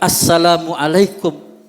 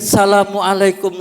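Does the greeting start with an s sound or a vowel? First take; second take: vowel; s sound. First: It begins with a vowel and a doubled s. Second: It begins directly with a single s sound. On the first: The speaker calls it right. "harus diawali dengan ucapan alif dan siddahnya harus ada" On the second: The speaker calls it wrong. "diawali dengan sin"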